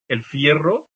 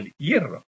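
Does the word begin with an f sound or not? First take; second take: f; no f. First: The word begins with an f sound. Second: The word begins without an f sound.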